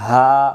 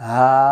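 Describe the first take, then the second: Both takes have the same delivery.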